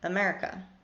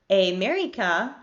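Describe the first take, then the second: First: The unstressed vowels are reduced to schwa. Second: The unstressed vowels are full and tense. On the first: The speaker calls it right. "They say America" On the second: The speaker calls it wrong. "They don't say America"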